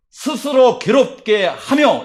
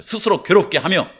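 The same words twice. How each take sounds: First: "스스로 괴롭게 하며" read very slowly, each syllable spaced, falling on "하며"; slow deliberate reading. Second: Said in the usual way. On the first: Shown as a demonstration. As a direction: draw out "스스로 괴롭게 하며" word by word, landing on "하며". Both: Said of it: "이렇게 해놨어요".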